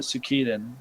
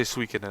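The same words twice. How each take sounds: First: Suikoden said as soo-KEE-den; alternative pronunciation. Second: Suikoden said as SWEE-ki-den; habitual pronunciation. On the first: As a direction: say Suikoden with stress on a long "kee". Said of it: "I always called it Suikoden". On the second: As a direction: say Suikoden with a "swee" start, stressed first. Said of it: "I always say Suikoden". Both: Shown as a demonstration.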